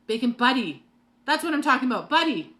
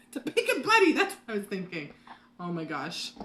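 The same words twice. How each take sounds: First: Loud, higher, thrilled shout; excited yelling. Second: Laughing. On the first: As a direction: yell it out with sudden excitement. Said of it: "why am I yelling at you guys". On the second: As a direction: laugh it out, relieved and amused. Laughs at finally remembering name. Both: Real, not acted.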